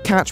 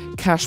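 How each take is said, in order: First: The word ends with a ch sound. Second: The word ends with an sh sound. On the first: "she told the audience to, quote" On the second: "her enunciation led it to sounding like"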